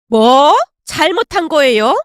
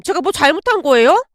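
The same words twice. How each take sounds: First: Loud, incredulous first word; indignant echo. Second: Mildly defensive question; a touch of indignant innocence; wounded protest. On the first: Mother-in-law repeating daughter-in-law's question, indignant. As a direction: throw the question back angrily. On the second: Daughter-in-law questioning angry mother-in-law, mildly defensive. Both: Acted.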